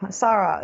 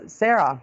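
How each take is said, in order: First: "Sarah" said SAH-ruh; first-try pronunciation. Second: "Sarah" said SAIR-uh; corrected pronunciation. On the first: Host greeting a viewer, trying "Sarah" as SAH-ruh. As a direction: say "Sarah" with an open ah in the first syllable. Reads a viewer's name two ways. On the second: Host correcting a viewer's name, "Sarah" as SAIR-uh. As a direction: say "Sarah" with an air sound in the first syllable. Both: Real, not acted.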